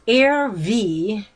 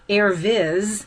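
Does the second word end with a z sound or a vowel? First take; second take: vowel; z sound. First: The second word ends with a vowel sound. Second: The second word ends with a z sound. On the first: The speaker calls it right. "but it was Air V, which is Latin for Air Force" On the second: The speaker calls it wrong. "I was pronouncing it wrong the whole time"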